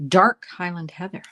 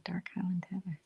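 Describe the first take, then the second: First: Said in the usual way. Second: Whisper. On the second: Real, not acted. Savoring the color name again.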